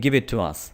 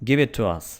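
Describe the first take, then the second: The two takes are said the same way.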